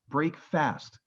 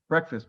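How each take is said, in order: First: It is said as two separate full words. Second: It is said as one blended, reduced word. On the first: The meal ends the overnight fast. "but it's break fast" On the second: This is the everyday name of the morning meal. "We pronounce it breakfast"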